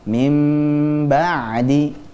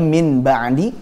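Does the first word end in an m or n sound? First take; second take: m; n. First: The first word ends in a lengthened m sound. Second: The first word ends in a plain n sound. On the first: The speaker calls it right. "akhirnya dibaca" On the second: The speaker calls it wrong.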